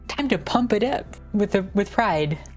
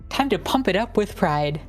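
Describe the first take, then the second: First: It is said with ordinary, low energy. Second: It is said with more energy and hype.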